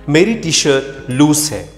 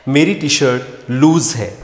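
Both takes have the same delivery.

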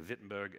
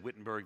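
First: It is said with a non-American pronunciation. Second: It is said with an American pronunciation. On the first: "the others say Wittenberg" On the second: "Americans say Wittenberg"

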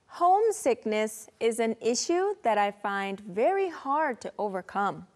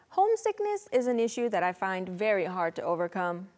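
First: The sentence is spoken at a slower pace. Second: The sentence is spoken at a faster pace.

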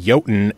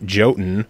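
First: The name begins with a Y sound. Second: The name begins with a J sound. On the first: The speaker calls it right. "it's actually Jotun" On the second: The speaker calls it wrong. "and not Jotun"

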